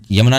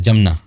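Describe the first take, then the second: First: The name begins with a 'y' sound. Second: The name begins with a 'j' sound. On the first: This is the form not used in the Braj region. "Brajmandal में यमुना नहीं बोलते" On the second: This is the form used in the Braj region. "जमुना बोलते"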